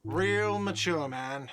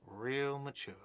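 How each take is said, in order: First: Slow, whiny yell; whiny shout. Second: Much softer, under the breath; muttered repeat. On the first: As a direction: jeer it slowly in a whine. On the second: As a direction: mutter it back to yourself. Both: Acted. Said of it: "a whiny voice shouts".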